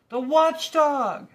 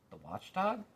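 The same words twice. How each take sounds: First: Huge, high, slow panicked scream; terrified shout. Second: Lightly puzzled rise on watchdog; quizzical question. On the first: Lethargarian spots the watchdog, panicked shout. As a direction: shout the name in terror. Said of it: "shouted another". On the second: Milo puzzled by the watchdog, quizzical. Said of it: "said Milo quizzically". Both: A narrator's reading.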